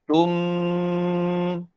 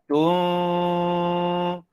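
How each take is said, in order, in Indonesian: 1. Bibir tertutup rapat saat dengung. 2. Bibir sedikit renggang saat dengung. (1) "Bunyi bibir rapat" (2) "Bunyi bibir tak rapat"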